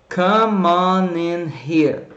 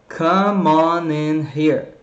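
Both takes have the same delivery.

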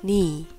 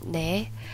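First: The vowel sounds like 'ee' in 'need'. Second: The vowel sounds like 'e' in 'net'. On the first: This is the everyday spoken form. "normally we just say like 네" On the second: This is the form as written. "we can read this 내"

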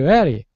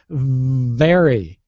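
First: The V at the start is weak, without buzzing. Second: The V at the start is voiced and buzzes strongly. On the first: The speaker calls it wrong. "a lot of folks from your region will say, very, very. It's not very" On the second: The speaker calls it right. "it's very, it's voiced, it vibrates"

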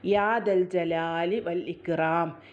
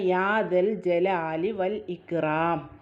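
Both takes have the same delivery.

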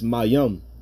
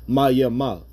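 First: The word ends with an 'im' sound. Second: The word ends with an 'ama' sound. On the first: The speaker calls it right. "it's Mayim" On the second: The speaker calls it wrong. "You're never supposed to pronounce it Mayama"

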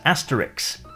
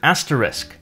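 First: The word ends with a k then s sound. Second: The word ends with an s then k sound. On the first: "Some people pronounce it as asterix" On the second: "we have the word asterisk"

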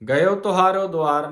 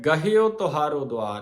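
First: The first word has no h sound. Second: The first word has a clear h sound. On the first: The speaker calls it wrong. "ਗਇਓ ਤੁਹਾਰੋ ਦੁਆਰ ਨਹੀਂ ਹੈ" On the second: The speaker calls it right. "ਗਹਿਓ ਹਾਹੇ ਨੂੰ ਸਿਹਾਰੀ ਬੋਲੇਗੀ"

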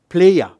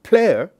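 First: The vowel sequence is split into two syllables. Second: The vowel sequence stays in one syllable. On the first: "will divide that type of syllables into two syllables" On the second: "a sequence of three vowels in the same syllable"

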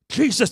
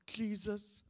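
First: It is said in a sharp, accusing tone. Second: It is said in a soft, gentle tone. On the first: The speaker blames the listener for not coming. The speaker calls it right. "If that was your brother, it wouldn't sound like that" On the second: The speaker is sadly and politely stating a wish. The speaker calls it wrong. "Martha has got to be a nice lady... it sounds like something like this"

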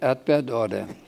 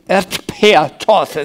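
First: The t sounds are softened to d sounds. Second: The t sounds are hard and clearly voiceless. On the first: It reveals a Franconian dialect speaker. "dass ich mich mal wieder fränkisch geäußert hatte" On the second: It imitates standard stage German. "Nicht nochmal werde ich die Torte weich aussprechen"

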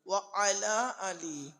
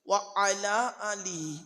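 The two takes are said the same way.

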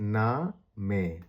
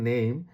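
First: It is two syllables, 'nah-meh', with an 'ah' vowel. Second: It is one syllable with an 'ay' vowel. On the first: "German ভাষা হবে না মে" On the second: "আমি যদি ইংরেজি উচ্চারণটা বলি নেম"

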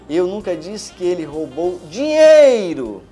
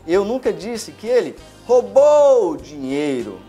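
First: The stress is on the word dinheiro. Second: The stress is on the word roubou.

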